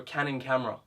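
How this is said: The voice is full and resonates from the chest. The speaker calls it right. "I can speak more like this"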